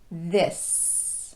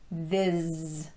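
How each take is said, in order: First: It ends with a voiceless s sound. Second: It ends with a voiced z sound. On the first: The speaker calls it right. "you should be ending with your voice off" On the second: The speaker calls it wrong. "If you're ending with your voice on, you'll get this"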